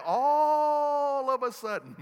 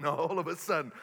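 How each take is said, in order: First: Loud, high preaching shout; loud shouted build-up of the earthquake story; big shout. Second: Said in the usual way. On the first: Real, not acted. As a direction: belt all of a sudden to the back row. Dramatic climax of quake story.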